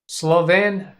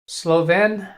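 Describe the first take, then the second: Both takes have the same delivery.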